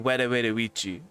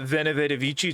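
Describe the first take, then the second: First: The letters are said as W sounds. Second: The letters are said as V sounds. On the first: The speaker calls it right. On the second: The speaker calls it wrong.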